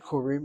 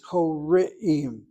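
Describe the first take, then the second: First: The vowels blend into two syllables. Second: The vowels stay apart in three syllables. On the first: The speaker calls it wrong. "The word is not Korim" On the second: The speaker calls it right. "it's Koreim"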